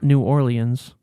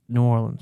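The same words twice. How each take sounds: First: The name is pronounced fully and carefully. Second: The name is pronounced in a relaxed, reduced way. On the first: The speaker calls it wrong. "not New Orleans" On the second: The speaker calls it right. "The lazy way is always right"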